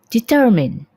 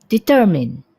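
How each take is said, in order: Both takes have the same delivery.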